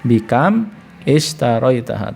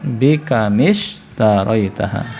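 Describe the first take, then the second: First: The two words are read separately with a break. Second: The two words run together without any break. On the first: "kalau mau dibaca bisa dipisah" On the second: "kalau mau nyambung"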